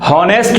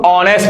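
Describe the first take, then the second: First: The word begins with an audible h sound. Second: The word begins directly with a vowel sound. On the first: The speaker calls it wrong. "इसको हम हॉनेस्ट नहीं पढ़ते" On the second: The speaker calls it right. "इसको हम ऑनेस्ट पढ़ते हैं"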